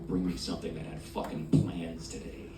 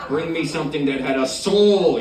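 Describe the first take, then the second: First: Low, softly spoken demand; decadent order. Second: Louder, higher, impassioned demand; demanding order. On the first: Diner ordering at a decadent restaurant, low and soft. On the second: Diner demanding decadent food from the waiter, loudly. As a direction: belt out the order, swelling on "soul". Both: Acted.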